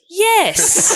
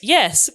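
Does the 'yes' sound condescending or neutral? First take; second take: condescending; neutral. First: The word is said in a condescending tone. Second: The word is said in a plain, neutral tone. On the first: It implies the listener is an idiot. "the you idiot was implied" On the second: It is a simple agreement. "most of the tone was yes"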